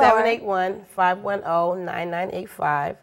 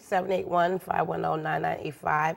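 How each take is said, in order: First: The number is said more slowly. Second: The number is said at normal speed.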